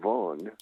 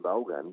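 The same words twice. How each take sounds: First: The name is pronounced the English way. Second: The name is pronounced the Spanish way. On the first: Saying it this way would not sell courses. The speaker calls it wrong. "Si yo digo Vaughan" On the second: This is the adapted form that sells. The speaker calls it right. "en vez de Vaughan"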